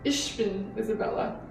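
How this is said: It is said in a very soft Munich accent.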